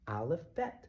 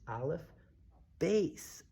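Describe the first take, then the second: First: The last word ends with a t sound. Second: The last word ends with an s sound.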